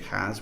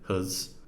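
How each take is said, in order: First: The vowel is full and clear. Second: The vowel is reduced and weak. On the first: The speaker calls it wrong. "We don't say has" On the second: The speaker calls it right. "we say huz"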